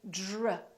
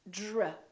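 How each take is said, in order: First: It has a soft j-like sound. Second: It has a soft j-like sound.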